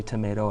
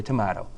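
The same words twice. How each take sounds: First: Tomato with a long 'ay' in the middle; tomato with the vowel of 'day'; long A pronunciation. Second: Tomato with an open 'ah' in the middle; tomato with the vowel of 'father'; broad A pronunciation. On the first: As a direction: say tomato as to-MAY-to. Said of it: "You say tomato". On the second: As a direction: say tomato as to-MAH-to. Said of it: "I say tomato". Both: Shown as a demonstration.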